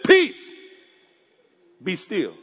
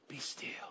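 First: It is said forcefully and not calmly. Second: It is said calmly and softly.

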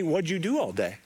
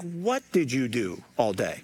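First: The question sounds light and curious. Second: The question sounds pointed and frustrated. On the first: The asker simply wants to hear about the day. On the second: The asker is annoyed that nothing was done.

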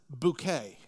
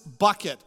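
First: The name sounds like the word bouquet. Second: The name sounds like the word bucket. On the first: "or as she pronounces it" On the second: "her name is Miss Bucket"

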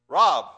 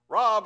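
First: The name is called in a harsher tone. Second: The name is called in a milder tone.

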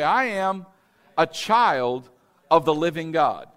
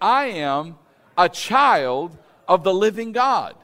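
First: It is said in a plain, casual way. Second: It is said forcefully, with strong conviction.

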